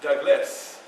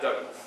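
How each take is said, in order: First: The final s sound is drawn out. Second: The final s sound is short. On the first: The speaker calls it right. "you say my name politely" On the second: The speaker calls it wrong.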